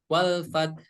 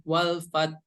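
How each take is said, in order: No difference in how they are said.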